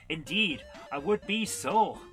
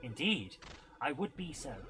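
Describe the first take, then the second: First: It is said in a put-on Irish accent. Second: It is said in the speaker's plain accent. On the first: The speaker calls it right. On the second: The speaker calls it wrong.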